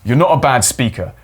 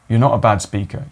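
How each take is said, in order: First: It is said in an angry tone. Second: It is said in a sad tone. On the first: "You try an angry one" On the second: "You could do a sad one"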